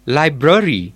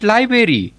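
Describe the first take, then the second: First: "library" with the r kept, as lai-bruh-ri; corrected library. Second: "library" without its first r, as lai-beri; mispronounced library. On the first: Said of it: "it's library". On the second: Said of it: "Not library". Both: Shown as a demonstration.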